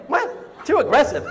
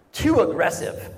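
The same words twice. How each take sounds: First: High unvoiced gasp of "What?" then a louder "Too aggressive?"; incredulous echo. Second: Deadpan, matter-of-fact complaint from the couch; a flat, unimpressed verdict; wife's dry complaint. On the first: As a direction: repeat her words back in disbelief. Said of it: "I'm like". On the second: Retold or imitated. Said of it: "she's like".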